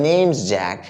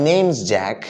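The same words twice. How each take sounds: No difference in how they are said.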